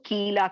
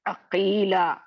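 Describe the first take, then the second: First: It begins with a light, front k sound. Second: It begins with a deep, heavy back q sound. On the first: The speaker calls it wrong. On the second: The speaker calls it right.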